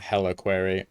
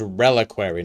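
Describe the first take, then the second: First: The word begins with an H sound. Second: The word begins with an R sound. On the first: The speaker calls it wrong. "not heliquary" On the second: The speaker calls it right. "So it's reliquary"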